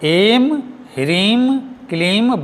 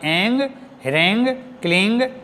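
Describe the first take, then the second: First: Each syllable ends with a closed m sound. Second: Each syllable ends with a nasal ng sound. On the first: The speaker calls it right. "ये सही में एम ह्रीम क्लीम बोलकर उच्चारण होता है और करना चाहिए" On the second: The speaker calls it wrong. "ना कि एंग ह्रेंग क्लिंग, ये नहीं है"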